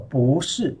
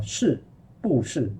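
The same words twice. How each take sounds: First: 不是 with 不 rising, then 是 falling; second tone then fourth tone in 不是; changed tone on 不. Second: 是不是 with every syllable falling in fourth tone; falling 不 before falling 是 in 是不是; wrong unchanged tone. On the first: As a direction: lift the 不 of 不是 before the falling 是. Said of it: "it become 不". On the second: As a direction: say 是不是 without lifting the tone of 不. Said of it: "是 is the fourth tone". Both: Shown as a demonstration.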